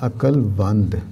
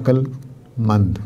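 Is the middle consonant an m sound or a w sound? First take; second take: w sound; m sound. First: The middle consonant is a w sound. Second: The middle consonant is an m sound. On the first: This is how some other people say it. "बाद लोग कहते हैं अकल वंद" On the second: This is how it is said locally. "हमारे यहाँ अकल मंद"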